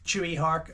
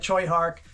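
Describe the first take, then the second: First: The first name is two syllables, like 'Chewy'. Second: The first name is one syllable, like 'Choi'. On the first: "Panos and Brett Ratner call him Chewy" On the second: "I've always known him as Choi Hark"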